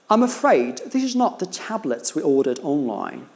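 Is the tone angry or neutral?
neutral. The tone is calm and neutral.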